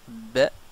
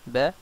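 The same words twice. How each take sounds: First: The b sound is pressed and doubled. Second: The b sound is short and single. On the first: "on appuie la lettre" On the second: "au lieu d'être de dire ba"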